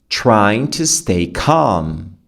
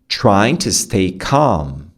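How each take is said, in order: The two takes are said the same way.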